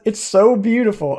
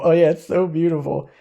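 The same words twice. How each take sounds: First: Said in the usual way. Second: Dry mock praise; sarcastic echo. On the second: Real, not acted. Gamer mocking the useless cursed horn's card text, sarcastic. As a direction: say it like you don't mean it.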